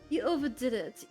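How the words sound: It is spoken with a British accent. The speaker calls it wrong.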